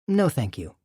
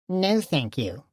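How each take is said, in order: First: It is said plainly and sincerely. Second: It is said in a mocking voice.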